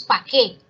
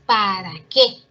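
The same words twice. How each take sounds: First: "pa' qué" with the first syllable dropped, run together; "pa' qué" chopped short; clipped pa' qué. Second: "¿para qué?" with every syllable clear and a little louder; "para qué" fully articulated; full para qué. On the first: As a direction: say "¿pa' qué?" the lazy, sloppy way. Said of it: "Muchas veces decimos". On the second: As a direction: spell out "¿para qué?" carefully. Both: Shown as a demonstration.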